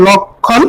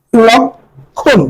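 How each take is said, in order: First: Said in the usual way. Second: "লক্ষণ" very slowly in two parts, lok, pause, khon; syllable-split demo. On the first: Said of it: "লক্ষণকে যেরকম উচ্চারণ করি". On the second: Shown as a demonstration. Teacher showing how we pronounce it, "লক্ষণ" split lok... khon. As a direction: break "লক্ষণ" after the k with a long gap. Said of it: "আমরা লক্ষণকে যেরকম উচ্চারণ করি".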